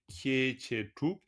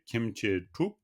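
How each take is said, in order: First: No m sound is heard before 'che'. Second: A light m sound comes before 'che'.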